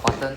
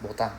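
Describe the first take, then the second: First: It is said as the English word button. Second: It is said as the Japanese word botan. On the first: The speaker calls it wrong. "it's not button" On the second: The speaker calls it right. "Japanese way of pronouncing it"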